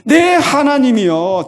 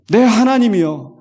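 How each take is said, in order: First: 내 higher and louder, slow; stress on 내. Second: 내 drawn out and lifted; stress on 내. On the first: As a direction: press 내 even harder, pleading. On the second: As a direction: lean hard on 내, mine. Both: Shown as a demonstration. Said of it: "다른 하나님이 아니라".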